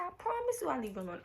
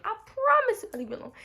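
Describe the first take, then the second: First: Said in the usual way. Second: Much higher, louder, faster repeat of the promise; pleading higher. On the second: Retold or imitated. Begging Jason for honesty, a higher louder insistent promise. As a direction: plead harder the second time.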